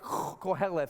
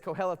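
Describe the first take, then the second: First: It is said with a harsh, throaty guttural sound. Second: It is said plainly, with no throaty sound.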